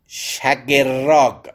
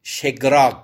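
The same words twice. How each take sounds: First: شگراگ with a short "a" after sh, then "ger" and a rolled r; shagerrag, stretched out. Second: شگراگ in two beats, g run straight into r; variant shegraag. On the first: Teacher shows students how the bird's name is read, شگراگ as sha-ger-raag, drawn out. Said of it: "به فتح شین کسره". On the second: Teacher gives another reading of the bird's name, شگراگ as she-graag. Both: Shown as a demonstration.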